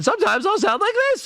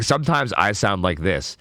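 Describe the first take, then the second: First: A high squeaky demo of a voice going up; much higher voice. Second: Said in the usual way. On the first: Shown as a demonstration. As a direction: jump way up in pitch.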